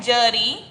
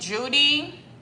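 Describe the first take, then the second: First: The first vowel is a short uh sound. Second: The first vowel is a long oo sound. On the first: The speaker calls it right. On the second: The speaker calls it wrong.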